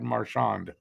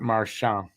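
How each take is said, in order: First: The name is said with an English pronunciation. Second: The name is said with a French pronunciation. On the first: This is how the player himself says it. The speaker calls it right. "He's from Ontario, so it's Brad Marchand" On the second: This is how it is said in Quebec. The speaker calls it wrong. "not Marchand"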